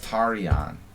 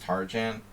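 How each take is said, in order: First: The j sounds like a y. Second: The j sounds like the English j. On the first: This is the original Hungarian pronunciation. "if you want to be correct, it's Tarian with the European J sound" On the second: This is how the bearer says his own name. "he doesn't use the Hungarian pronunciation"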